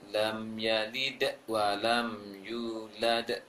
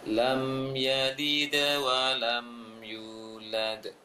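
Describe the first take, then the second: First: There is a break after yalid. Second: Yalid flows straight into wa without break. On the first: The speaker calls it wrong. "Jangan baca nanti ... terputus tadinya" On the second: The speaker calls it right. "Dibacanya ... tidak putus pantulan dal ini"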